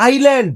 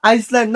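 First: "আইল্যান্ড" with a silent S; "আইল্যান্ড", "eye" straight into "land"; correct pronunciation. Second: "আইসল্যান্ড" with the S sounded; "আইসল্যান্ড" with a hissed S before "land"; mistaken pronunciation. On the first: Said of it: "এটা হলো". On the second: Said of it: "আইসল্যান্ড একটা দেশের নাম". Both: Shown as a demonstration.

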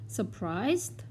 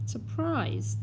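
First: Rising question tune on Surprised; Surprised lifted at the end like a choice being offered; quiz-option rise on Surprised. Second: Surprised said high then falling firmly, as the final answer; answer-reveal fall on Surprised; given as the answer. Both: Shown as a demonstration.

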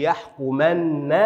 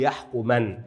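First: يحكمن as "yahkumanna", n held long, final a; يحكمن with a heavy held "-nna"; doubled nun. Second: يحكمن as "yahkuman", ending on a single n; يحكمن without doubling the final nun; light nun. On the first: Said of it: "وتأتي نونا مشددة". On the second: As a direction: close يحكمن on a light, vowelless n. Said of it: "وتأتي نونا مخففة". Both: Shown as a demonstration.

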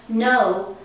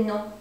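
First: English "no", louder, with a full oh glide; English pronunciation. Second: French "non", nasal vowel, final n unsounded; French pronunciation. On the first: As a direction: say "no" the plain English way. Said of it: "it's sort of like no". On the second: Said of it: "you make it French sounds". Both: Shown as a demonstration.

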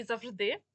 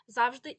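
First: «завжди» as a loud, slow зав-ЖДИ; stress on second syllable. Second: «завжди» as a loud, slow ЗАВ-жди; stress on first syllable. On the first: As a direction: punch the last syllable of «завжди». (наголос на другий склад: «завждИ») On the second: (наголос на перший склад: «зАвжди») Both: Shown as a demonstration. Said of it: "подвійний наголос".

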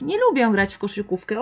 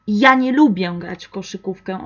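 First: Said in the usual way. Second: Ja leaned on with extra force at the start; stress on Ja. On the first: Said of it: "Pero como poner más fuerza". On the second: Shown as a demonstration. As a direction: hit the word Ja to stress yourself. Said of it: "entonces enfatizar". (énfasis fuerte en Ja al inicio)

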